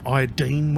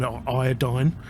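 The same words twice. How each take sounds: First: "iodine" said eye-oh-deen, last syllable like "dean"; iodine ending in -deen. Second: "iodine" said eye-oh-dyne, last syllable like "dine"; iodine ending in -dyne. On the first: Offering another name for the injection, "iodine" said to rhyme with "dean". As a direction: say "iodine" with an ee sound at the end. Offers the other pronunciation, whatever called. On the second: Naming what they injected, "iodine" said to rhyme with "dine". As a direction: say "iodine" with a long i at the end. Gives two pronunciations of one word. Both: Shown as a demonstration.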